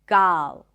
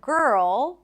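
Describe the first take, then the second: First: The vowel is an open ah sound. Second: The vowel is an r-colored er sound. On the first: The speaker calls it wrong. "substitute the sound with just one open ah sound" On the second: The speaker calls it right. "the stir sound is an R vowel"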